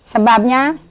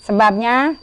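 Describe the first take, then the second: No difference in how they are said.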